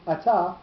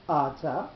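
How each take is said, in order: First: The stress is on the second syllable. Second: The stress is on the first syllable. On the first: The word is in the middle of the sentence. "with the accent on the second syllable" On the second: The word ends the sentence. "with the accent on the first syllable"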